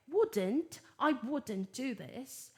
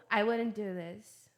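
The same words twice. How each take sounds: First: "wouldn't" British-style, T sounded, drawn out; slow British demo of "wouldn't"; British pronunciation. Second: "wouldn't" American-style, T swallowed, slow; slow American demo of "wouldn't"; American pronunciation. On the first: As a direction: say "wouldn't" the British way, slowly, with a clear T. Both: Shown as a demonstration. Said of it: "Tô dando as pronúncias British e American".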